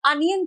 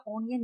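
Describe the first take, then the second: First: अनियन begun with a short "uh"; अनियन with an uh vowel, not oh; correct pronunciation of अनियन. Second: ओनियन begun with a round "oh"; ओनियन with an oh vowel, dropped softer; wrong pronunciation of ओनियन. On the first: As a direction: say अनियन as "UN-yun". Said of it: "प्याज को अनियन कहते बेटा". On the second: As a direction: say ओनियन as "OH-ni-yun". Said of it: "ओनियन नहीं कहते". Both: Shown as a demonstration.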